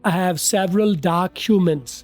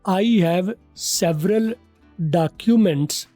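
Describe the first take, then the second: First: It is said in a native-like English accent. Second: It is said in a local South Asian accent. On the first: "अब मेरे की तरफ चलते हैं।" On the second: "आप वाला style."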